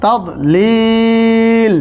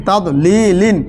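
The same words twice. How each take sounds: First: Long, steady held vowel in "লিল"; "লিল" drawn out on one level note; three-alif elongation. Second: Said in the usual way. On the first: Shown as a demonstration. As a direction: stop on "তাদ লিল", stretching the ই of "লিল" very slowly. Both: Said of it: "ওয়াকফ করলে তিন আলিফ পরিমাণ টান".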